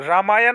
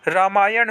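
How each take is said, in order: First: रामायण ending in plain n; wrong dental n. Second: रामायण ending in curled-tongue ṇ; correct retroflex n. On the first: Teacher showing students the mistake, plain n. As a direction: keep the tongue forward ending रामायण. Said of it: "नहीं होता है". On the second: Teacher giving students the right form, retroflex n. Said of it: "होता है". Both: Shown as a demonstration.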